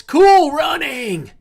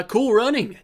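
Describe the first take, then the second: First: High, loud, drawn-out hail; excited shout. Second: Said in the usual way. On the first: Real, not acted. Host hailing a viewer in chat, excited shout. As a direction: holler the name in a long, rising cheer. Calls out viewer's name in greeting.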